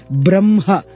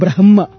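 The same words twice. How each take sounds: First: The m sound comes before the h. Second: The m sound comes after the h. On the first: The speaker calls it right. "You say Brahma, those letters have to be chanted first, then comes the Ha" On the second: The speaker calls it wrong. "not Brahma"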